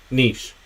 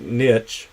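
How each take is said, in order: First: Niche said as "neesh", rhymes with leash; niche with long ee and sh; corrected niche. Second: Niche said as "nitch", rhymes with itch; niche with short i and hard ch; mispronounced niche. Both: Shown as a demonstration. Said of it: "I always say that wrong".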